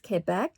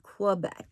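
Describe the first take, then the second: First: It begins with a plain k sound. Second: It begins with a kw sound. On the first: "It sounds like I'm saying it with a K" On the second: "as opposed to a Q U, which would be Quebec"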